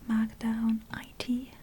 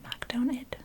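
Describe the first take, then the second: First: The last part is spelled out as two letters. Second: The last part is said as the word it. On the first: The speaker calls it wrong. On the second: The speaker calls it right.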